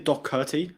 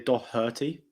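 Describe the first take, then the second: First: The middle consonant is a hard K sound. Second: The middle consonant is a soft H sound. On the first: The speaker calls it wrong. "I don't say Doherty ... So it's not with a K" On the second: The speaker calls it right. "I say Doherty, as in as in an H"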